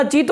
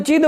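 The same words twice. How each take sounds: First: "चित" ending in a crisp dental t. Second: "चिद" ending in a voiced dental d. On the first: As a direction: say "चित" with a clean t, not a d. ("चित" के अंत में साफ़ त) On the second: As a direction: say "चिद" with a d in place of t. ("चिद" के अंत में द की आवाज़) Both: Shown as a demonstration. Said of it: "चित बोल रहे हो कि चिद".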